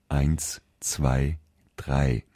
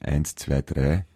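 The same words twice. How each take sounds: First: It is said in careful, clear standard pronunciation. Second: It is said in a broad eastern Austrian accent. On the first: The speaker calls it right. "aber eine schöne Aussprache erwünscht" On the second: The speaker calls it wrong. "Viele Menschen, also gerade in Ostösterreich, würden sagen"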